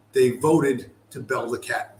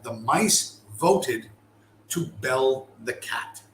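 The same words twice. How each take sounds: First: Said in the usual way. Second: "The mice voted... to bell the cat", drawn out with a pause after "voted"; slow, deliberate, split after "voted"; slow emphatic repeat. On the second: Shown as a demonstration. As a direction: repeat it very slowly for weight. Repeats the phrase for weight.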